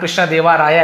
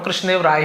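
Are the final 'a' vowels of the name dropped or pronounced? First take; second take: pronounced; dropped. First: Each name part ends with a full 'a' vowel. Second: Each name part ends without a final vowel. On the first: "बार बार मैं कृष्णदेवा राया ऐसे नहीं पढ़ूंगा" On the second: "कृष्णदेव राय ही पढ़ दूंगा"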